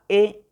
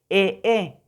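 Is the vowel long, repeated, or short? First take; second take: short; repeated. First: The vowel sound is short and plain. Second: The vowel is said twice in a row. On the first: "Las simples es únicamente como las que conocemos" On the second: "eso no existe, eso no es así"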